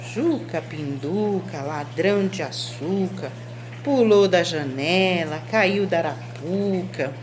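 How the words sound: It is said in a flat, uninterested tone. The speaker does not care what happened. "Tô indiferente"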